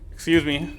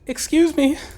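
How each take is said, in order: First: It is said in the speaker's natural voice. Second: It is said in a put-on female voice.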